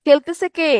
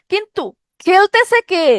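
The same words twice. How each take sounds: First: Said in the usual way. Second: খেলতেছে lifted high and drawn out slowly; a teacher slowly pressing the key question খেলতেছে কে; emphatic question. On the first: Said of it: "repeats the question plainly". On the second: Shown as a demonstration. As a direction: lean hard on খেলতেছে, slow and high, to make students think. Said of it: "teacher stresses the question".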